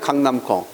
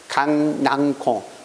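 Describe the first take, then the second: First: The second syllable ends in an m sound. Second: The second syllable ends in an ng sound. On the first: This is the original form from the word's origin. "원래는 강남콩입니다" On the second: This is the easier form people came to use. "연구계모화 시켜서 발음하는 것이 좀 더 어, 편하다는 얘기야"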